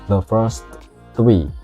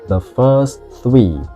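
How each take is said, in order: First: The T sound at the end of 'first' is pronounced. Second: The T sound at the end of 'first' is dropped. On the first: The speaker calls it wrong. "nggak the first three" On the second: The speaker calls it right. "tapi T-nya hilang"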